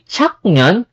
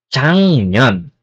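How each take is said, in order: First: The first syllable ends in a k sound. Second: The first syllable ends in an ng sound. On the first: The speaker calls it wrong. "hindi chak nyon" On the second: The speaker calls it right. "kundi chang nyon"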